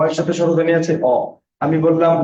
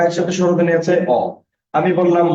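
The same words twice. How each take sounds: The two takes are said the same way.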